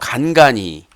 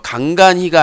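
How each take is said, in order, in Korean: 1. 이 단어는 또박또박 발음됐고, 소리가 분명해요. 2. 이 단어는 대충 발음됐고, 소리가 뭉개졌어요. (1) "발음을 똑바로 하셔야지" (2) "간간히가 아니라요"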